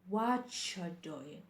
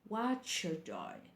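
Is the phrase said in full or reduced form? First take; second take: reduced; reduced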